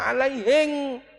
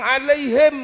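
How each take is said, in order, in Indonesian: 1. Diucapkan dengan logat Bugis, diakhiri ng. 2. Diucapkan dengan cara baku, diakhiri m. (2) "suruh bilang alaihim nggak bisa"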